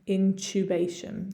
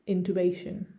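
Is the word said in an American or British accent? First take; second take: British; American. First: It is said in a British accent. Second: It is said in an American accent. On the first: "with my British accent, my English accent" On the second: "If I was from the United States, it would be intubation"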